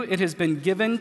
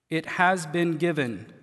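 First: Said in the usual way. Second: "has been given" set apart deliberately; stress on HAS BEEN GIVEN. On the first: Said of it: "Pause just for a minute". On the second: Shown as a demonstration. Preacher pausing to point out the passive, stress on has been given. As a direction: isolate the phrase, weight on "has". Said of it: "This is a passive voice".

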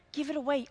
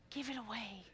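First: Said in the usual way. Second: Soft first take. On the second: Shown as a demonstration.

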